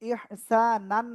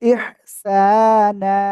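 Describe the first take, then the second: First: The word ends with an n sound. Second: The word ends with a long a vowel. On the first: The speaker calls it wrong. "ইহসানান না বলে" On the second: The speaker calls it right. "বলবো ইহসানা"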